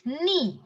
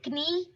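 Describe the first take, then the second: First: "knee" said as nee, starting on n; silent K. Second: "knee" with a hard k before the n; K sounded. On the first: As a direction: say "knee" with no k sound. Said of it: "The pronunciation of it is just knee". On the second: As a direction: say "knee" wrongly as k-nee. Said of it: "It is knee. Okay, not". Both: Shown as a demonstration.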